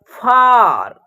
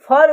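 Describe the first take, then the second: First: The vowel is long, like 'aa'. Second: The vowel is short, like 'uh'. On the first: The speaker calls it right. "इसका उच्चारण क्या होगा" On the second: The speaker calls it wrong. "इसको हम लोग फर उच्चारण नहीं करेंगे।"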